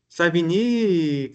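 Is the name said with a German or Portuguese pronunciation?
Portuguese. The name is said with a Portuguese pronunciation. "que não é assim que se pronuncia"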